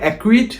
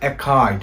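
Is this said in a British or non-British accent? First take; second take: non-British; British. First: It is said in a non-British accent. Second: It is said in a British accent. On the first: "আমি বলি" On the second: "সে বলে অ্যাকাইড। British অ্যাকসেন্টে এটার উচ্চারণ হবে অ্যাকাইড"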